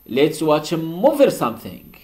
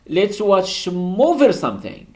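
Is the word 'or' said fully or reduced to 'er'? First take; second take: reduced; reduced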